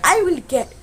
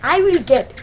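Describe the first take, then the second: Both takes have the same delivery.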